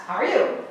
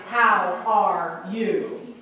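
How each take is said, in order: First: Quick "How are you" in one breath; fast, run together. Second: HOW, ARE, YOU drawn out one by one; slow word-by-word. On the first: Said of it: "So it's just fast". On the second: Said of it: "We don't sign it that way". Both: Shown as a demonstration.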